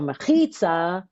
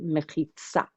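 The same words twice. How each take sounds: First: The stress falls before the last syllable. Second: The stress falls on the last syllable. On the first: This is the older European pronunciation. "an older European way of pronouncing it" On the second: This is the modern Israeli pronunciation. "Usually the accent's on the last syllable"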